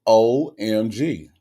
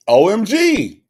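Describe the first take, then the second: First: Slow, spelled-out OMG; slow, measured raving; drawn-out OMG. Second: High, loud, emphatic OMG; loud high-pitched enthusiasm; excited OMG. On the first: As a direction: savour each letter, stretching it out. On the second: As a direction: burst out raving, letter by letter. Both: Real, not acted. Raving about Costco muffins.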